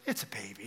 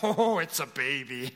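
First: It is said in a calm, relaxed tone. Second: It is said in a panicked, worried tone.

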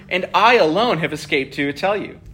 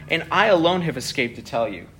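No difference in how they are said.

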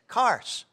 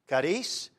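First: The word is said with an English-speaker's pronunciation. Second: The word is said with a Spanish pronunciation. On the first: "kars is the way we Anglos pronounce the word in Greek" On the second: "I like that Spanish pronunciation of the word"

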